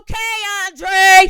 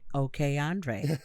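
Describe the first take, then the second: First: It is screamed loudly. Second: It is said at a calm, normal volume.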